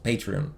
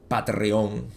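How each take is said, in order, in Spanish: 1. Se pronuncia a la manera del inglés americano. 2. Se pronuncia a la española.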